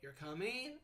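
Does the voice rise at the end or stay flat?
rising. The pitch rises at the end. It asks whether the listener is coming. "with a rise tone, it sounds like a question"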